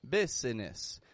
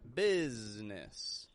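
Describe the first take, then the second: First: The middle vowel is sounded, with a hissed s. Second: The middle vowel is dropped, with a z sound. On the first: The speaker calls it wrong. "I'm not saying business" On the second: The speaker calls it right. "The S changes to a Z and the I that's in the middle disappears altogether"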